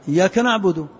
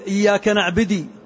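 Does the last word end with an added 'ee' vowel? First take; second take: no; yes. First: The last word ends without an added vowel. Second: The last word ends with an added 'ee' vowel. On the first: The speaker calls it right. "والصواب" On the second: The speaker calls it wrong. "بعض اللحان يقول"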